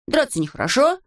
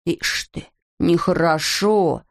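First: Said in the usual way. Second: Slow mocking echo of нехорошо; mocking mimicry. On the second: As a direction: drag out нехорошо teasingly. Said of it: "передразнил голос".

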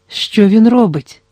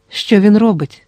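First: Slower and higher, pressing worry; slow, higher, anxious plea; anxious question. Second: Mildly tense, understated; tense question. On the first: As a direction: draw it out with rising alarm. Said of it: "спитала жінка". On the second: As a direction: ask it tightly, holding back fear. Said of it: "напружено спитав Гаран". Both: A narrator's reading.

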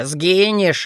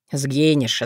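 First: The second сгинешь back up at normal pitch; сгинешь tossed off lightly; higher gloating. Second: The first сгинешь dropped low and falling; сгинешь low, slow curse; low gloating. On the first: (второе сгинешь выше, с издёвкой) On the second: (первое сгинешь низко, с угрозой) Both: A narrator's reading. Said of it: "зло и безумно смеялся".

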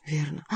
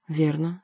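First: Softer, said half to himself; Bussy echoing the doctor under his breath; quiet echo. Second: Said in the usual way. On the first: Acted. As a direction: repeat the word quietly, musing. Repeated to himself, thoughtful.

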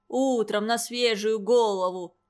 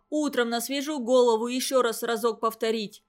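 First: A mild sneering parody of Mitenka's words; mocking mimicry. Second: Said in the usual way. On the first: A narrator's reading. Vasya mocks Mitenka by parroting him in a sneering tone. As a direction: echo his words back with a sneer. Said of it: "передразнил его Вася".

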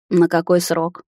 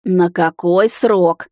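First: Said in the usual way. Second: Much slower, louder, stressing срок; raised voice. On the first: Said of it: "спросила я". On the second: A narrator's reading. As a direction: demand it slowly, hitting срок. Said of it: "повысила я голос".

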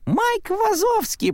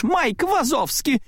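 First: «Майк Вазовский» очень высоко, медленно, по-детски радостно; произнеси имя как маленькая девочка; голос малышки. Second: «Майк Вазовский» медленно, высоко, с возмущённым нажимом; протяни имя сердито и с укором. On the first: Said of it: "произнесла малышка". (Бу радостно называет Майка, тонким детским голоском) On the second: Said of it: "разозлилась Селия". (Селия сердито отчеканивает «Майк Вазовский») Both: A narrator's reading.

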